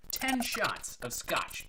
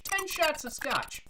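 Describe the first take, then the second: First: Said in the usual way. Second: High, slow exclamation of disbelief; incredulous repeat. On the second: Acted. Bartender telling of a customer's huge order, incredulous. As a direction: stretch it out, astonished by the order.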